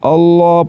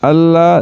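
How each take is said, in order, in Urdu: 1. L بھاری اور بھرپور ادا ہوتا ہے۔ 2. L ہلکا اور باریک ادا ہوتا ہے۔ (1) "لفظ اللہ کے لام کو پر کر کے پڑھیں گے۔ اللہ اللہ پڑھنا ہے" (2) "اللہ نہیں پڑھنا، یہ غلط ہے"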